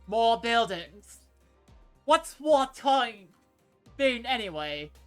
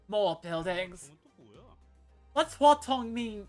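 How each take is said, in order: First: It is said in a Cockney accent. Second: It is said in his usual accent.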